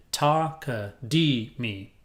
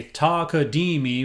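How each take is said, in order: First: Ta-ka-dee-me stretched very slowly, each syllable apart; teacher breaking the word into its four syllables; slowly spelled out. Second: Said in the usual way. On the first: Shown as a demonstration. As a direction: lay out Ta-ka-dee-me one syllable at a time, very slow. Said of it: "shoved a ka in the middle and put a me at the end". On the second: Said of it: "shoved a ka in the middle".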